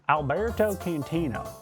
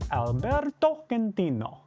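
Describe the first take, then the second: First: The name is said in a neutral accent. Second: The name has an exaggerated Italian accent. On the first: It should not offend anyone. The speaker calls it right. "That's probably nice and neutral" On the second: It might offend someone. The speaker calls it wrong. "Probably offended someone"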